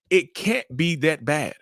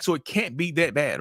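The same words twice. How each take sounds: First: Slower, with weight on "can't"; emphatic repeat. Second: Said in the usual way. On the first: Acted. Narcissist's logic driven home to the listeners, slow and emphatic. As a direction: land "can't" firmly and stretch the line.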